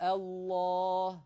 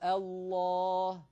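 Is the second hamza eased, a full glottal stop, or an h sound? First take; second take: glottal stop; glottal stop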